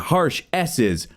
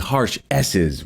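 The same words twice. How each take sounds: First: The S sounds are softer and less hissy. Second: The S sounds are sharp and hissy. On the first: "If I turn this down" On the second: "I'm just getting some like really harsh S's"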